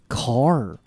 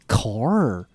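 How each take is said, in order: First: The final r is pronounced with curled tongue. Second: The same.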